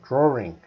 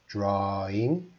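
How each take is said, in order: First: It is said in a British accent. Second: It is said in a Canadian accent. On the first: "I do a terrible British accent, but they say drawing" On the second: "for my Canadian accent, I would say drawing"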